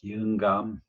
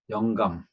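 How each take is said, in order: First: The first vowel is a blended 'i-eu' sound. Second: The first vowel is the standard 'yeo' sound. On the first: This is how elderly people in the countryside say it. "영감이라고 하는데" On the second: This is the standard form that rural elders do not use. "영감이라고 발음하지 않아요"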